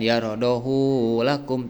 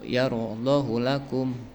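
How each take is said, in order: First: The vowel after the h is drawn out long. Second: The vowel after the h is kept short. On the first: The speaker calls it wrong. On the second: The speaker calls it right. "Dipendekkan hak domirnya"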